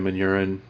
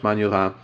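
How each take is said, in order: First: The name is said with American pronunciation. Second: The name is said with French pronunciation. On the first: It comes across as plain and unpretentious. "just a little bit more Americanized that way" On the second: It comes across as snooty and pretentious. "technically in French is pronounced"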